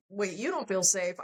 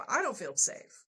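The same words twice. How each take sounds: First: Retold retort leaning hard on "you"; stress on YOU. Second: Retold retort leaning hard on "I"; stress on I. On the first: Throwing partner's words back. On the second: Retort turning it on herself.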